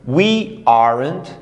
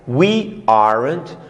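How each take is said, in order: Both takes have the same delivery.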